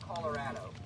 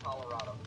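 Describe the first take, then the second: First: The ending sounds like 'addo'. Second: The ending sounds like 'otto'. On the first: This is how people from the state say it. "people from Colorado pronounce it Colorado. So instead of Otto, it's Addo" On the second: This is how people outside the state say it. "everyone outside of Colorado pronounces it Colorado"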